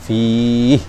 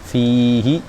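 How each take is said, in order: First: The word ends on a consonant, vowel dropped. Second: The word ends with a final vowel sound. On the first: The reader stops on this word. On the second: The reading continues on.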